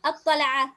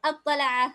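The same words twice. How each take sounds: Both takes have the same delivery.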